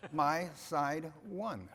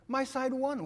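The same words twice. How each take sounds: First: Slow, laughing repeat of the line; slowly repeating it while laughing. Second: Higher, louder mock cheer of the wife; retelling his wife's triumphant outburst; wife's excited cry. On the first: Real, not acted. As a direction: savor the punchline through a chuckle. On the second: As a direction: throw it out like a proud fan. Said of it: "She said".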